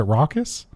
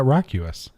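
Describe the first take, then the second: First: "raucous" as two syllables, RAW-kus, rising; corrected raucous, questioning. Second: "racuous" said with a "rack-yoo-us" sound; mispronounced racuous. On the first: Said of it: "Is it raucous?". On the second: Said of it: "I've always pronounced that racuous". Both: Shown as a demonstration.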